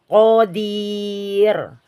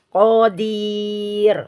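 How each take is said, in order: No difference in how they are said.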